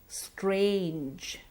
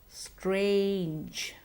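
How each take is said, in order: Both takes have the same delivery.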